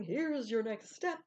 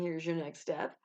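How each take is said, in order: First: Slow, drawn-out divine voice from afar; slow voice of God. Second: Said in the usual way. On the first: Retold or imitated. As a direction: lightly voice God as a distant inner voice. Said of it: "a still small voice inside your head or God going". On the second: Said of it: "it is sometimes God saying".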